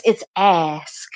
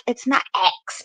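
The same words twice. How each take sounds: First: "ask" with S before K, carefully enunciated; corrective ask. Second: "ask" said as "aks"; ask as axe. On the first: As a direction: land a clear s-k ending on "ask". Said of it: "they'll be like". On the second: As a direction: flip the S and K in "ask" so it sounds like "axe". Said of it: "I used to say axe". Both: Shown as a demonstration.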